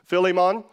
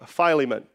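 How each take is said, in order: First: The name uses the stricter technical pronunciation. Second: The name uses the common American pronunciation. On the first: "technically it's Philemon" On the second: "which is like the American common pronunciation"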